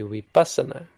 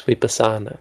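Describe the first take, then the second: First: "vipassana" stressed on PAS, short sa; corrected stress. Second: "vipassana" with long, stressed SA; English-style stress. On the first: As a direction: punch PAS in "vipassana", quick light sa-na. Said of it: "but this should be". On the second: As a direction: stress the second-to-last syllable of "vipassana", vipa-SAA-na. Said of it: "In English, we always give the penultimate". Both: Shown as a demonstration.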